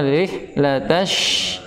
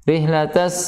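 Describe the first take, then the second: First: The final consonant is a spread, rushing sh. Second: The final consonant is a sharp hissing s. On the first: The speaker calls it right. "harusnya rihlatash, deras" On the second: The speaker calls it wrong.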